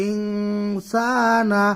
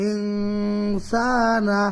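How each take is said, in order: Both takes have the same delivery.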